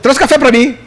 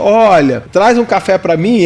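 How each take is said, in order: First: It is said fast, sounding imposing. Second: It is said slowly, with pauses.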